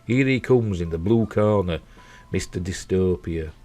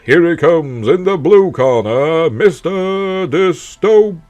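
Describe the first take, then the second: First: It is said in a plain speaking voice. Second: It is said in a booming announcer voice.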